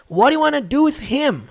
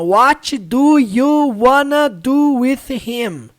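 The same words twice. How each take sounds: First: The words are run together quickly. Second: Each word is said slowly and separately. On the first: The speaker calls it right. "ela disse mais ou menos assim" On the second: The speaker calls it wrong. "você não vai ouvir ninguém falando assim"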